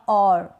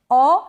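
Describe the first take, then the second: First: और slowly, with only a touch of R; drawn-out और with a faint R; slight R. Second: औ slowly, with no R; drawn-out औ, R left off; silent R. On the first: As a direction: end और on a barely sounded R. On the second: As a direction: hold औ as a pure vowel. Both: Shown as a demonstration. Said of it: "र को बिल्कुल थोड़ा सा pronounce".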